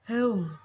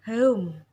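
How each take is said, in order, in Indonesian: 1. Vokalnya meluncur dari bunyi e tengah ke u. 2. Vokalnya meluncur dari bunyi e tengah ke u.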